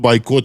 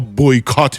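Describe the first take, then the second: First: The word begins with a 'bye' sound. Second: The word begins with a 'boy' sound. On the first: It is the usual local way of saying it. "به قول خودمون" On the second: It is the other person's way of saying it. "به قول شما"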